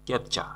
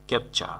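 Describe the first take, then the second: No difference in how they are said.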